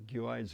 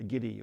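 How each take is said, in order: First: The name ends in an s sound. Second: The name ends in an ee sound. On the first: This is the speaker's own way of saying it. "I call it a Guedes rifle" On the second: This is what the Boers called it. "The Boers used to call them Giddy"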